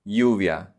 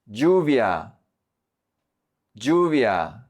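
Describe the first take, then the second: First: Lluvia starting on a soft y, "yu-via". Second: Lluvia starting on a hard j, "ju-via"; j sound. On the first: Teacher showing the softer option, lluvia with soft ll. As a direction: say the ll in lluvia like y in yes. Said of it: "do the soft one". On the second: Teacher modelling Colombian lluvia for learners, hard j sound. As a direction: say the ll in lluvia like English j. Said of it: "focus on the j sound". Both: Shown as a demonstration.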